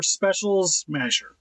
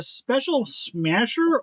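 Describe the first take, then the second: First: "Special Smasher" split as specials / masher; word break after S. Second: "Special Smasher" split as special / smasher; word break before S. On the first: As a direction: move the S from "Smasher" onto the end of "Special". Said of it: "or Special Smasher". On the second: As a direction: keep the S at the start of "Smasher". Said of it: "is it Special Smasher or". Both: Shown as a demonstration.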